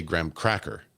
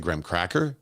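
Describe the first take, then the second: First: "graham cracker" with cracker punched; stress on CRACKER. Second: "graham cracker" in the usual way, graham leading; stress on GRAHAM. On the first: Retold or imitated. Streamer quoting people who say it oddly, CRACKER stressed in "graham cracker". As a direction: put the weight on cracker, not graham. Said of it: "emphasize the word cracker". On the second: Shown as a demonstration. Streamer giving their own habit, GRAHAM stressed in "graham cracker". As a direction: lead with graham, cracker lifting at the end. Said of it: "I've always said".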